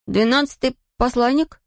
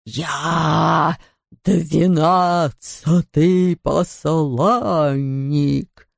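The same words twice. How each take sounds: First: High puzzled echo of двенадцатый; puzzled question. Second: Very slow booming ghost. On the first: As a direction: repeat двенадцатый back in confusion. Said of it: "переспросил Том". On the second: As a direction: drag each word out like a spectre. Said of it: "раздалось из его белого рта". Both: Acted.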